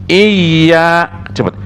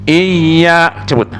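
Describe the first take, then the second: Both takes have the same delivery.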